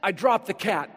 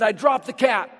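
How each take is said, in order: First: Said in the usual way. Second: Louder and higher, punch DROPPED hard; emphatic repeat. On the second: Retold or imitated. Pastor repeats David's boast to the church, loud and emphatic. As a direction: hit "dropped" like a triumphant boast.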